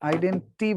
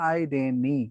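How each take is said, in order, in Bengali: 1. n-এর পরের t ধ্বনিটি উচ্চারিত হয়। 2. n-এর পরের t ধ্বনিটি বাদ যায়। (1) "আইডেন্টি বলবে না" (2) "ওই বলবে হলো আইডেনি"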